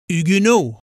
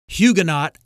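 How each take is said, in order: First: The word is given a French pronunciation. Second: The word is given an American pronunciation. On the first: "the French pronounce the Americanized word Huguenot as Huguenot" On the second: "the Americanized word Huguenot"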